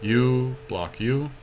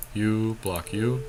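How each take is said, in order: Both takes have the same delivery.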